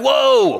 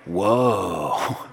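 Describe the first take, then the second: First: It sounds like telling someone to stop. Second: It sounds like an amazed exclamation.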